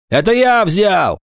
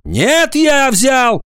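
First: High, offhand confession; careless voice. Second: High, forceful shouted confession; high-pitched emphatic interjection; interrupting. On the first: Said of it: "небрежный голос Агафонова". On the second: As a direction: cut in loudly and insist. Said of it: "перебил его Агафонов". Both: A narrator's reading.

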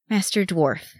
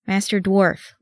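First: Words forced through clenched teeth. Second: Said in the usual way. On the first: A narrator's reading. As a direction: tight jaw, teeth clenched, barely opening. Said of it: "through clenched teeth". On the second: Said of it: "Legolas tried again".

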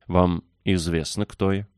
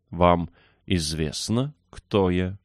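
First: Put-on mildly imperious question from a young rajah; understated commanding tone. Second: Slow, measured, imperious question; slowly, with regal command. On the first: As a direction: ask it as a small ruler would. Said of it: "повелительным тоном спросил Раджа". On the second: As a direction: draw each word out like royalty. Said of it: "ещё более царственным тоном повторил Колин". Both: A narrator's reading.

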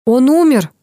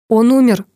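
First: УМЕР higher and louder, then falling; insistent repetition. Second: Tense, raised news-breaking; a touch of agitation, a little louder; nervous. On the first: Doctor repeats «Он умер» to the narrator, insistent on умер. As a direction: repeat it more forcefully, leaning on умер. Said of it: "повторил врач". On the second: Professor breaks the news of a death, nervous. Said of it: "профессор здорово нервничает". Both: A narrator's reading.

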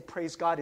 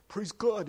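First: Said in the usual way. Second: "Praise God" said a bit awkwardly, half swallowed; awkward, self-conscious. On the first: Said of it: "I wanna say". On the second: Shown as a demonstration. Pastor showing his embarrassed, swallowed praise. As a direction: mumble "Praise God" like it feels cheesy. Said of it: "it doesn't come out of my lips very smoothly".

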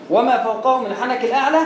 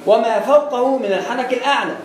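No difference in how they are said.

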